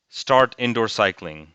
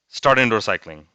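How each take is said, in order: First: The phrase is spoken at a normal speed. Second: The phrase is spoken very fast. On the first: "the first time I read the word, it was pretty like at a normal speed" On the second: "and then I went like really fast"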